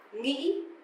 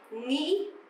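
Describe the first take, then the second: First: It is said with a northern accent. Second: The same.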